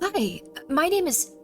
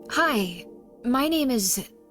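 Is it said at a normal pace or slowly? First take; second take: normal pace; slowly. First: It is said at a normal pace. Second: It is said slowly and drawn out.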